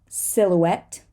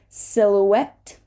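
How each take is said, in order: Both takes have the same delivery.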